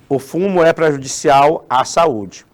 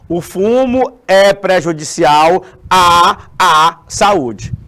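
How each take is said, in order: First: The vowel 'a' is said once, smoothly. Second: The vowel 'a' is said twice, like a stutter. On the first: The speaker calls it right. "A pronúncia é normal" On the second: The speaker calls it wrong. "Eu vou pronunciar o A do, do nome prejudicial e o A do nome saúde"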